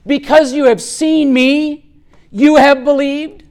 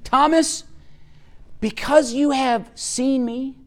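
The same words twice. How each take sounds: First: Said in the usual way. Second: "Thomas, because you have seen me" as a soft question, rising on "me"; questioning tune. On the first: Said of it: "it doesn't have a question mark". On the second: Shown as a demonstration. Jesus questioning Thomas as in the Greek text, rising and soft. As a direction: lift "seen me" into a gentle, unfinished question. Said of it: "there is a question mark".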